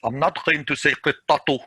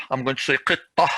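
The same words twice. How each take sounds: First: Qittatu with the full ta and u ending; full ta ending as when you carry on; connected form. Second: Ending on h at a stop; pausal form. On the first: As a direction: say qittatu, t and u clearly spoken. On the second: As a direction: end qittah on a breathy h, no t. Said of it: "if I'm going to stop". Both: Shown as a demonstration.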